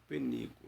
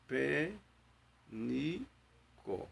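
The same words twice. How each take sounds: First: Said in the usual way. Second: "pé, ni, có" with a pause between each syllable; split into syllables. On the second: Shown as a demonstration. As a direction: say "pé", "ni", "có" one by one, clearly apart. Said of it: "São quantas sílabas?".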